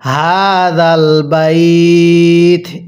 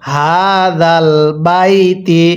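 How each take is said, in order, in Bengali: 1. শেষ শব্দটি স্বরচিহ্নবিহীন 't' ব্যঞ্জন দিয়ে শেষ হয়। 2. শেষ শব্দটি 'i' স্বরধ্বনি দিয়ে শেষ হয়। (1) "ওয়াকফের সময় আমরা এই তায়ের নিচের জেরকে বাদ দিয়ে দিব"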